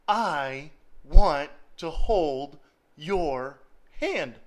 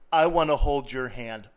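First: I want to hold your hand, very slow with want drawn out; slow, stressed God line. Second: I want to hold your hand said laughing at a normal pace; God line through a laugh. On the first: Preacher slowly repeating God's words to the congregation. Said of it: "here is God saying". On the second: Preacher laughing as he voices God's tender offer. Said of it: "by God saying". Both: Acted.

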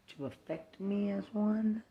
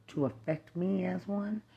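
Both takes have the same delivery.

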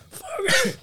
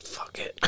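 First: Much higher, sharp exclaim. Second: Breathy whisper under the breath. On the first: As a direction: toss it off up high. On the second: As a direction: whisper it to yourself. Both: Real, not acted. Same words said twice differently.

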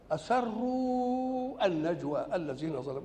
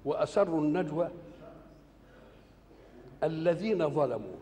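First: أسروا drawn out slowly and higher; slow stressed reading. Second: Said in the usual way. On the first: Shown as a demonstration. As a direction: lean on أسروا, stretching it. (تشديد وإطالة على أسروا) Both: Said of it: "وإحنا عندنا في النحو".

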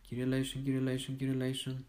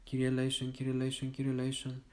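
The two takes are said the same way.

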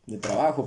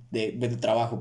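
First: Said in the usual way. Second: Stumbling. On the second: Real, not acted. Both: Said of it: "perdón, me trabé".

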